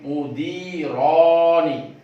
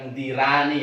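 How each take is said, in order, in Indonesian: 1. Vokal setelah r terdengar seperti o. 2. Vokal setelah r terdengar seperti a. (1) "ro-nya dibaca ro bukan menjadi ra" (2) "bukan mudirani"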